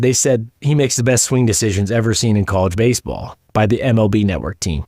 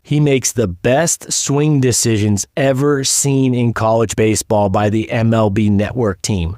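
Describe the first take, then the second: First: Said in the usual way. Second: Slow, deliberate quote read with weight on makes; measured, emphatic reading of a scouting quote; slow verbatim read. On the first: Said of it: "So right after he gets drafted". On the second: Retold or imitated. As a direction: read the quote out slowly, word by word. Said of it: "here's what they said verbatim".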